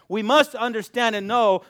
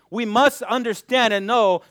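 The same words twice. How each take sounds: The two takes are said the same way.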